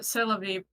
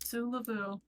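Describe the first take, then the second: First: The word ends with an 'ee' sound. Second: The word ends with an 'oo' sound. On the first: It is the real phrase. The speaker calls it right. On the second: It is a joke version from an internet meme. The speaker calls it wrong.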